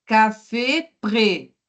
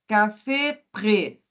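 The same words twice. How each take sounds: First: Café prêt with closed é sounds, slowly; slow demo of café prêt. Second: Said in the usual way. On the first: Shown as a demonstration. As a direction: stretch café prêt, closing each é. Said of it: "observe se eu préfère, ó". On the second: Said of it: "observe se eu préfère".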